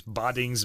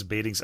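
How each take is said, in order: First: "Badings" with an ah, BAH-dings; guessed pronunciation. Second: "Badings" with an ay, BAY-dings; alternative pronunciation. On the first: Host unsure how to say a Dutch name, guessed ah pronunciation. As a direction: say "Badings" as if spelt Boddings. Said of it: "not gonna know how to say". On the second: Host unsure how to say a Dutch name, guessed ay pronunciation. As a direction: say "Badings" to rhyme with fadings. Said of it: "I don't know". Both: Shown as a demonstration.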